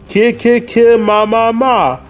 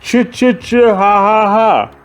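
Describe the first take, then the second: First: The syllables begin with k and m sounds. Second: The syllables begin with ch and h sounds. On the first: "Let's hear that sound one more time" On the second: "for some of you, you pronounce it ch"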